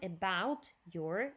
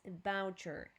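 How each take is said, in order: First: The two words are said separately. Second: The two words are linked together. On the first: The speaker calls it wrong. "It's not" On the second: The speaker calls it right. "together, okay? So connected"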